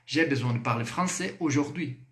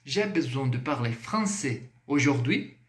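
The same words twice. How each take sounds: First: Aujourd'hui drops at the end as a statement; falling statement tune. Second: Aujourd'hui lifted at the end as a question; rising question tune. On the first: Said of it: "Agora eu vou afirmar". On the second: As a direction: ask it, rising at the close. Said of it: "Entonação, subiu, é uma pergunta". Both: Shown as a demonstration.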